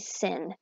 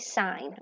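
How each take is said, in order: First: The word has a short 'ih' vowel. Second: The word has a long 'eye' vowel. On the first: The speaker calls it wrong. "Don't say sin" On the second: The speaker calls it right. "you still say sine"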